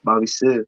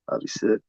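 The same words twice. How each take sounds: First: Said in the usual way. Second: Unvoiced, much softer, just breathed out; whispered to himself. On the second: Real, not acted. Repeating the forgotten name to himself, whispered. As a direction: mutter the name under his breath.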